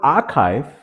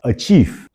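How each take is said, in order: First: The word does not sound like 'achieve'. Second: The word sounds like 'achieve'. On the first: The speaker calls it right. "The word archive" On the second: The speaker calls it wrong. "we hear people pronounce as achieve"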